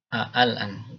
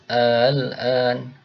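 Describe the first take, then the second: First: The middle glottal stop is said clearly and fully. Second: The middle glottal stop is softened into a glide. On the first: "Ini aslinya al-an ya" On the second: "itu cara membaca dengan tashil ... digelombangkan"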